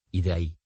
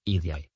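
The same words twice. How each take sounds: First: Said in the usual way. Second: «y de ahí» fused into «idiay»; «y de ahí» contracted. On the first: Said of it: "Unieron dos o más palabras". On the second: Shown as a demonstration. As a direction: merge de and ahí into one «diay». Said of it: "suprimiendo fonemas". («y de ahí» contraído en «idiay»)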